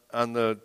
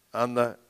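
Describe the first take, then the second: No difference in how they are said.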